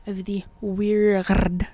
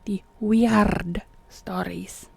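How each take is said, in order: First: Slow "weird" with a stumbling trill on the R; drawn-out "weird", R trill coming late and rough; botched rolled R. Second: Slow "weird" with a deliberate trilled R; drawn-out trill in "weird", then "stories"; rolled R retry. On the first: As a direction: stretch "weird", trying to roll the R and not quite landing it. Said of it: "sometimes the R's just, they don't roll right". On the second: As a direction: stretch "weird" and roll its R fully. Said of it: "they don't roll right". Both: Shown as a demonstration.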